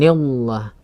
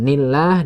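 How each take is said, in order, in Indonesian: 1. Bunyi lam berat dan tebal. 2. Bunyi lam ringan dan tipis. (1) "bukan nillah" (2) "nillah dibaca tipis"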